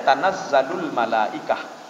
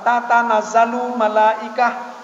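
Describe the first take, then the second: First: Slow recited "Tanazzalul malaikah" with the short form tanazzalu; "Tanazzalul malaikah" drawn out in recitation; Quranic form. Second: Slow "Tatanazzalu malaikah" with both ta syllables said; "Tatanazzalu malaikah" pronounced slowly in full; full root form. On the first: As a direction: chant "Tanazzalul malaikah" slowly, one ta dropped. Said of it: "Tanazzalu berasal dari kalimat tatanazzalu". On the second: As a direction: spell out "Tatanazzalu" with the doubled ta. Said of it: "Maka dihilangkan satu tak". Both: Shown as a demonstration.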